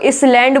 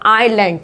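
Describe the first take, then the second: First: An s sound is pronounced in the middle. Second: No s sound is pronounced in the middle. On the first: The speaker calls it wrong. "नहीं इसमें स की आवाज नहीं आएगी" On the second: The speaker calls it right. "इसे बोलेंगे हम आइलैंड"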